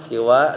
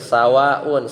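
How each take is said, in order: First: The first vowel after s is i. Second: The first vowel after s is a. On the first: "dibaca siwa dengan kasroh sinnya" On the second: "dengan memfathahkan sin"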